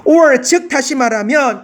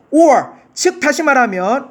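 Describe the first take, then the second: First: "or" said with a falling close, phrase kept together; right reading. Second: Rising tune on or as the wrong way; wrong reading. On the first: Teacher shows the correct phrasing to students. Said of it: "이렇게 해야지". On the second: Teacher shows a wrong pause before correcting. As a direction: pause placed wrongly after or. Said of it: "이렇게 하면 안 되지". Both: Shown as a demonstration.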